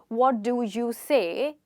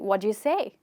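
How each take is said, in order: First: Each of the four words is said separately. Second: The words are run together like one word. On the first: "instead of saying" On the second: "You can say, ... think of that as one word"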